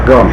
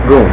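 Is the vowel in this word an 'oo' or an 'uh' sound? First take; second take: uh; oo. First: The vowel is a short 'uh' sound. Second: The vowel is a long 'oo' sound. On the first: "Goom or gum" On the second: "Goom or gum"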